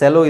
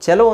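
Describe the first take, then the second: First: The word begins with an s sound. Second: The word begins with a ch sound. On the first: It is the name of a company. "Company ಹೆಸರು ಸೆಲೋ ಇರ್ಬೋದು" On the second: It is the musical instrument. "Actually ... ಚೆಲೋ ಅಂದರೆ ಒಂದು instrument"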